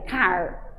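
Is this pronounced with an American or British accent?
American. The final r is clearly pronounced. "o americano vai marcar mais o R"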